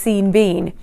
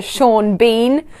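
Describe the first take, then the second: First: Sean misread as SEEN, rhyming with Bean; mistaken pronunciation. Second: Sean said as SHAWN, Bean as BEEN; correct pronunciation. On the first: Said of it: "I thought he was". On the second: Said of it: "it should be pronounced Sean". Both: Shown as a demonstration.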